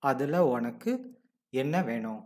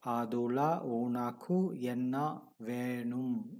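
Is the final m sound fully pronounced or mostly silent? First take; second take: mostly silent; fully pronounced. First: The final m is a faint, partly silent nasal. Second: The final m is fully pronounced. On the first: The speaker calls it right. "the nasal partly silent M" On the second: The speaker calls it wrong. "It is not adula unaku enna venum"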